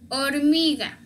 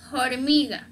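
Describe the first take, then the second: First: The h at the start is silent. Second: The h at the start is pronounced. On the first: The speaker calls it right. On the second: The speaker calls it wrong.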